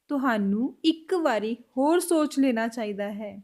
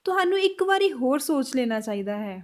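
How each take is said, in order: First: Slower, clearer Punjabi line; slow repeat. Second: Said in the usual way. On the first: Shown as a demonstration. Teacher slowing the Punjabi line for learners. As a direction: lay out each word slowly. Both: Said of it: "Punjabi में कैसे बोलेंगे".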